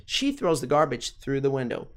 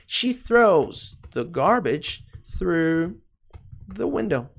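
First: Said in the usual way. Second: Very drawn-out English with pauses; slow model sentence. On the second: Shown as a demonstration. Teacher modelling the she form, very slowly. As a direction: stretch each word out for learners.

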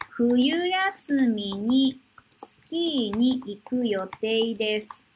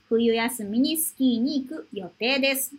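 First: 冬休みにスキーに行く read slowly, word by word; slow model reading. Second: Said in the usual way. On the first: Shown as a demonstration. Teacher reading the sentence slowly for students. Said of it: "teacher repeats sentence slowly". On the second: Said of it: "repeat at normal pace".

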